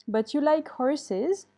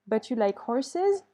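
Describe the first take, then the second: First: Said in the usual way. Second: Slow reading that leans on the final S of horses; stress on horses. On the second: Shown as a demonstration. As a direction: land on horses and let its plural S be heard. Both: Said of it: "Il faut que tu mettes un S à horse".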